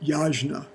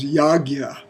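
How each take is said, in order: First: The middle of the word sounds like 'jn'. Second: The middle of the word sounds like 'gy'. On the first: "we pronounced it yajna" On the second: "the pronunciation that I've come to use more"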